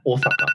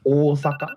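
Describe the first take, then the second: First: The O sound is short. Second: The O sound is long. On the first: The speaker calls it wrong. "it's not Osaka" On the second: The speaker calls it right. "Long O sound"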